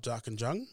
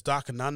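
First: Darkinjung with a clear J, "DAR-kin-jung", rising; questioned pronunciation. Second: Darkinjung with no J sound, like "DAR-ki-nun"; checking pronunciation. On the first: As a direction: ask it with the J sounded in Darkinjung. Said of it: "So it's, it's Darkinjung". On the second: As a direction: say Darkinjung softened to "Darkinung", the J dropped. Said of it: "not Darkinjung?". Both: Shown as a demonstration.

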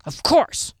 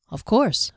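First: Gruff, pitched-up retort; brusque, indignant answer. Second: Measured, courteous assent; composed, formal tone. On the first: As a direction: snap back gruffly. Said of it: "he answered gruffly". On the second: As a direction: agree with formal politeness. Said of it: "adjusting his tone and demeanor to match". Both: A narrator's reading.

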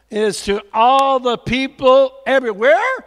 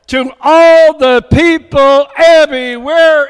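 First: Said in the usual way. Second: Proclaiming. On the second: Acted. Preacher proclaims the repeated line.

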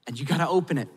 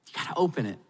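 First: Said in the usual way. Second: Soft repeat. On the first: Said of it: "urging then softening". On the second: Shown as a demonstration. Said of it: "repeated softly".

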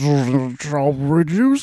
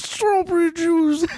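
First: Slow lispy drawl. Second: Lispy voice shouted high. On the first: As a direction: lisp the words slowly. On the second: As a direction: yell it high with a lisp. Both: Retold or imitated. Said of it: "that same kind of lispy".

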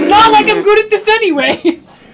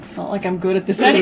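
First: Loud, high frustrated yell; exasperated shout. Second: Said in the usual way. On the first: Real, not acted. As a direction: throw up your hands and shout it. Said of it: "shouted take". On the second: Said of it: "repeated louder".

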